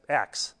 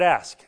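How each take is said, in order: First: The word ends with a k then s sound. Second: The word ends with an s then k sound. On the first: "somebody says axe" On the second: "you say the word ask"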